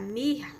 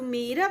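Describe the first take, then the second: First: MIRRA with a throaty, h-like double R. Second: MIRA with a single tapped R. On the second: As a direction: say "mira" with a light tongue-flick R. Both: Shown as a demonstration. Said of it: "com R duplo".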